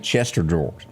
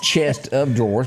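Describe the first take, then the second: First: The first two words blur into one quick word. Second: Each word is said separately and clearly. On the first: "most people say Chester drawers. say it real fast" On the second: "but it's chest of drawers"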